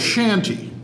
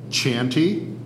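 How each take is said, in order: First: The word begins with a 'sh' sound. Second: The word begins with a 'ch' sound. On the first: This form is more common in European usage. "either pronunciation" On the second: This form is more common in American usage. "either pronunciation"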